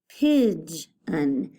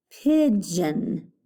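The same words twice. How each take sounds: First: "pigeon" broken as pidge... un; split syllables. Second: Said in the usual way. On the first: Shown as a demonstration. Teacher breaking the word up for pupils, "pigeon" split after G. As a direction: pause after the G sound in "pigeon". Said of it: "put that after the G". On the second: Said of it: "All right, the next one".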